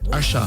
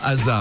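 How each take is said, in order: First: The middle consonant is a 'sh' sound. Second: The middle consonant is an 's' sound. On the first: The speaker calls it right. "il faut prononcer" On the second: The speaker calls it wrong. "Et pas Asa"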